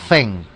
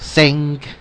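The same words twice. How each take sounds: First: It begins with a t-like sound, tongue near teeth. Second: It begins with a hissing s-like sound. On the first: "los que pueden unir la T con la Z" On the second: "Pueden empezar con una Z unido de una S"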